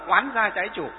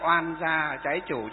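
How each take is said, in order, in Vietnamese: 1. Âm tiết đầu mang thanh sắc, đọc gắt và cứng hơn. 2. Âm tiết đầu mang thanh nhẹ, đọc mềm và nhẹ hơn. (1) "trong sách nói chuẩn nó là" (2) "cho nó nhẹ nhàng đi một chút"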